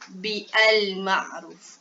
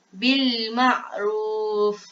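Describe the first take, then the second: First: The article is sounded separately with its own vowel. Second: The article's vowel is dropped, linking into bil. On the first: The speaker calls it wrong. "kenapa kita tak tukarkan dia kepada uh, baris atas? ... Kenapa kita tak baca bi al ma'ruf?" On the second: The speaker calls it right. "Kita terus masuk kepada huruf lam"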